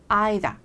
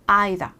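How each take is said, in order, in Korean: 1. 영국식 발음이에요. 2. 영국식 발음이에요.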